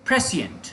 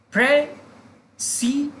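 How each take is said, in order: First: "प्रेसिएंट" joined up as PRE-si-ent, falling at the end; whole-word pronunciation. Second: "प्रेसिएंट" slowly split as pre, si, ent, pitched high; syllable by syllable. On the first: Teacher modelling the word for learners, "प्रेसिएंट" in one piece with a fall. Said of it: "that is the pronunciation". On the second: Teacher showing learners the pronunciation, "प्रेसिएंट" slowly syllable by syllable. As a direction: break "प्रेसिएंट" into three slow separated syllables. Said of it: "तो देखिए, pronunciation इसका है". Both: Shown as a demonstration.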